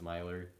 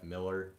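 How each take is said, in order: First: The first vowel sounds like 'my'. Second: The first vowel sounds like 'mill'. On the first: This is how the speaker says it. "I just pronounce it as Myler" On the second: This is how some listeners say it. "some of you guys kind of pronounce like E N F Myler as E N F Miller"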